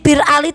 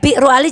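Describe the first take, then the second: First: The name is said quickly, with a shortened first word. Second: The name is said fully, with an extra syllable. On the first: This is the everyday spoken form. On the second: This is the original form of the name. "aslinya Bi'ru Ali"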